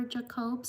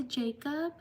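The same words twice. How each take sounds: First: Jacob as juh-KOBE, stress on the second syllable; alternative pronunciation. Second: Jacob as JAY-cub, stress on the first syllable; usual pronunciation. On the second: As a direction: say Jacob the English way, JAY-kub, rising. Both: Shown as a demonstration. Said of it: "sorry if I mispronounced your name".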